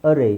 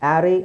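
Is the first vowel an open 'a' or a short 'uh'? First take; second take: short uh; open a. First: The first vowel is a short 'uh' sound. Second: The first vowel is an open 'a' sound. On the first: The speaker calls it right. "ಅರೇ is better" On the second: The speaker calls it wrong. "ಆ್ಯರೇ ಅಂತಲೂ ಹೇಳ್ತಾರೆ"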